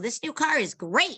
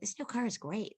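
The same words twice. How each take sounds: First: It is said loudly and with big energy. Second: It is said quietly and with restrained energy. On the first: The speaker calls it wrong. "don't be too loud. Don't say" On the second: The speaker calls it right. "Just say, ... just be a little more subtle"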